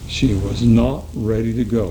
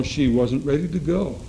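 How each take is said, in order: First: "not" hit hard and louder, lower pitch; stress on NOT. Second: Said in the usual way. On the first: Shown as a demonstration. Preacher insisting his flock hears "not". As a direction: lean into "not" so it lands heavy. Preacher repeats the line for emphasis.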